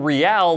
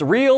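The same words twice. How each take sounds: First: It sounds like Spanish, as in Real Madrid. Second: It sounds like the English word real.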